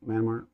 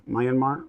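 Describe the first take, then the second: First: Myanmar said as two syllables, "man-mar", softly and falling; soft, final "Myanmar" clipped to MAN-mar; quietly settling on "Myanmar" as man-mar; settling on a pronunciation. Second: Myanmar tried as "my-an-mar", three syllables, rising like a question; testing out "Myanmar" slowly as MY-an-mar; quietly checking the name, "Myanmar" said my-an-mar with a questioning rise; trying another way. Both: Shown as a demonstration. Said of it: "if I mispronunciate something, forgive me".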